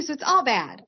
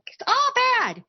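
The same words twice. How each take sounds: First: Said in the usual way. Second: Much higher, sing-song repeat of "all bad"; emphatic repeat. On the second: Real, not acted. Streamer repeating to chat it is all bad, pitched way up. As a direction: throw it up high for emphasis.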